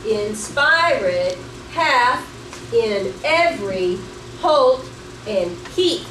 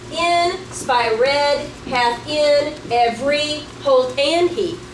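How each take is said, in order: First: It starts unstressed, stressing every second syllable. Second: It starts stressed, stressing every first syllable. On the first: The speaker calls it right. "Does it sound like we stressed the right syllables?" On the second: The speaker calls it wrong. "what if we started with the stress instead?"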